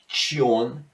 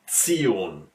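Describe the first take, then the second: First: The ending is said the English way. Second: The ending has an S sound after the T. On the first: "the English version where you have to say something like Tion" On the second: "you have to pronounce this one with an S in between after the T"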